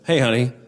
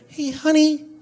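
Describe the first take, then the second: First: It is said in a normal voice. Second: It is said in a thin, reedy voice.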